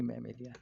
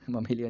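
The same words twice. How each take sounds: First: मैमेलिया opening on "mae"; corrected pronunciation. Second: ममेलिया with a short schwa in the first syllable; mistaken pronunciation. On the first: Teacher corrects the class name for students, full first vowel. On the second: Teacher shows students the mistaken term, first vowel reduced. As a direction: open ममेलिया on a short "muh". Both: Shown as a demonstration. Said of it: "ममेलिया नहीं".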